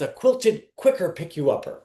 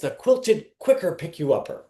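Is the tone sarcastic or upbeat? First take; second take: upbeat; upbeat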